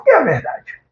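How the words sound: It sounds like a defiant, challenging retort. The asker dismisses truth as relative. "de quem faz uma afronta"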